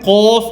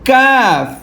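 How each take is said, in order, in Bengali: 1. স্বরধ্বনিটি একটি গোলাকার, ভারী 'o' ধ্বনি। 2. স্বরধ্বনিটি একটি খোলা, অগোলাকার 'a' ধ্বনি।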